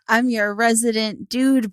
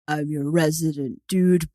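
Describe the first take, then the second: First: The voice is at its normal pitch. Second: The voice is pitched lower and deeper.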